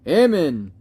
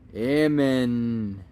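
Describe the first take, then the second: First: It is said loudly, with more force. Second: It is said quietly, in a low voice.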